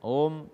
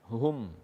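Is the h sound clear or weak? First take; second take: weak; clear. First: The h sound is weak and unclear. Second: The h sound is clear and distinct. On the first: The speaker calls it wrong. "tidak membaca ha dengan jelas pada kata hum" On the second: The speaker calls it right.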